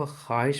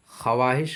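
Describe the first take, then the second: First: ख्वाहिश as khaa-hish; silent waw. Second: ख्वाहिश with waw sounded, kha-waa-hish; as written. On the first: Teacher gives the correct reading, ख्वाहिश as khaa-hish. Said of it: "को ख्वाहिश पढ़ेंगे". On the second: Teacher quotes the spelling, ख्वाहिश as kha-waa-hish. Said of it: "लिखा हुआ है". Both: Shown as a demonstration.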